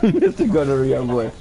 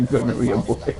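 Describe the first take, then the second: First: Mock-grand nickname through laughter; laughing mock title. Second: Chuckling through the words; giggling at the silly name; laughing. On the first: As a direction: savour the name with a laugh. Repeats the name, laughing. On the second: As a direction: laugh it out, amused. Laughing at a video's story. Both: Real, not acted.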